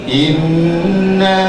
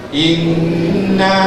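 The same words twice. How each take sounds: First: The doubled n is held long with nasal hum. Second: The doubled n is held long with nasal hum.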